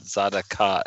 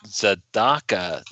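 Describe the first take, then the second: First: The stress falls away from the 'da' syllable. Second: The stress falls on the 'da' syllable. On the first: The speaker calls it wrong. "not Zadaka" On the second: The speaker calls it right. "the emphasis is on the Dalet, so it's Zadaka"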